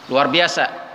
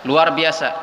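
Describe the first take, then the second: No difference in how they are said.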